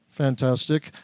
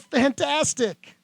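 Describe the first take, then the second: First: It is said in an upset, grumpy tone. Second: It is said in a cheerful, happy tone.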